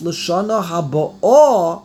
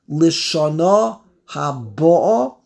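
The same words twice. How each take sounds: First: The stress is on the last syllable of habo'o. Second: The stress is on the first syllable of habo'o. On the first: The year is still coming: next year. "if you put the emphasis on the Aleph" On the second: The year has already arrived: this year. "If you put the emphasis on the base"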